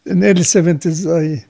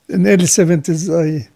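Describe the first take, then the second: No difference in how they are said.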